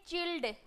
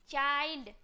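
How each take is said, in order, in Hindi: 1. स्वर 'ih' जैसा सुनाई देता है। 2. स्वर 'eye' जैसा सुनाई देता है। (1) "जो कि गलत है" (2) "आई से पढ़ते हैं"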